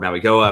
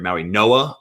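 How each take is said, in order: First: The middle consonant is pronounced as a G. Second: The middle consonant is pronounced as an N.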